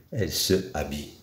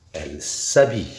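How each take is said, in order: First: "se habille" in two separate words, quick and soft; unelided pronunciation. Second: "s'habille" joined, the s gliding into the vowel; elided pronunciation. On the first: Teacher showing the form before the change, unelided pronunciation. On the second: Teacher showing the changed form before a vowel, elided pronunciation. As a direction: drop the e and link s straight onto "habille". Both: Shown as a demonstration. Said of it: "là, il y a changement".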